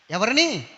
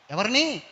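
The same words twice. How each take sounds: The two takes are said the same way.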